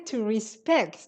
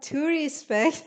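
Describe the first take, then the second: First: It is said with an English accent. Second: It is said with an Isfahani accent. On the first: The speaker calls it right. "you have to say to respect" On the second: The speaker calls it wrong. "you're saying it with an Isfahani accent"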